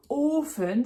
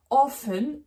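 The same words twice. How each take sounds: First: "Ofen" with a drawn-out closed o; long O. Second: "Offen" with a short open o. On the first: Teacher showing single-consonant rule, long o in "Ofen". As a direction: hold the o in "Ofen". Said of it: "la voyelle va être longue". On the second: Teacher showing double-F rule, short o in "Offen". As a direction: punch a quick o in "Offen". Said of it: "un O devant qui va être court". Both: Shown as a demonstration.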